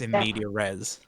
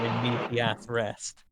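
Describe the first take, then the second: First: The phrase ends on an s sound. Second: The phrase ends on a t sound. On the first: The speaker calls it right. "I think it's in media res" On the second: The speaker calls it wrong. "It's definitely not supposed to be pronounced like that"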